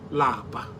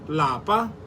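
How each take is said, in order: First: The word is said with a low tone. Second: The word is said with a high tone. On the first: It means to be tired. "Lower tone" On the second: It means home. "In higher tone"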